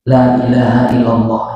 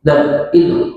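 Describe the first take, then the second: First: The phrase is said loudly and clearly. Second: The phrase is slurred, with syllables swallowed. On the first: "dia baca keras-keras" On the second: "dibaca dengan tidak jelas"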